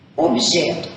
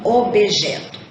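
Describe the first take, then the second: First: The b is said without a following vowel. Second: An extra vowel is added after the b. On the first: The speaker calls it right. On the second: The speaker calls it wrong. "e não objeto"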